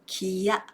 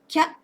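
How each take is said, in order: First: It is said as two separate beats. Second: It is said as a single beat. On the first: The speaker calls it wrong. "not kiya for two beats" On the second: The speaker calls it right. "it is pronounced as kya for one beat"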